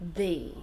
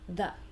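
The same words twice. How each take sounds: First: The vowel is a long ee sound. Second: The vowel is a short, weak uh sound. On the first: "So the E is like me, the same sound" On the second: "then I do the uh sound"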